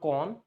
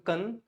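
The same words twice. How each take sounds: First: The vowel is a full, open sound. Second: The vowel is a weak schwa sound. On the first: It is the noun form. The speaker calls it wrong. "not con. Con is in the noun" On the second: It is the verb form. The speaker calls it right. "the first O would convert into schwa. It would become con"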